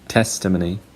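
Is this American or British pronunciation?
British. It has one stressed syllable. "British people say testimony"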